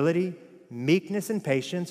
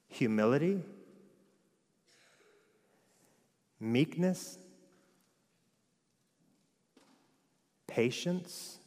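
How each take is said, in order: First: The list is read at normal speed. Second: The list is read slowly.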